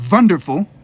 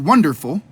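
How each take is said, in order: First: The word begins with a V sound. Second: The word begins with a W sound. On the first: "put the V in there where it used to be" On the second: "The washing of the tone"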